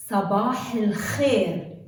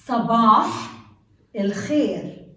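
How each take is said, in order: First: Sabah el khair repeated, smooth and joined; Arabic pronunciation. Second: Sabah el khair with a rasping kh; Arabic pronunciation. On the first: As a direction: Sabah el khair said in one flow, rasping kh. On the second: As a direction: Sabah loud, khair with German ch. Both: Shown as a demonstration. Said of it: "Let's take some examples".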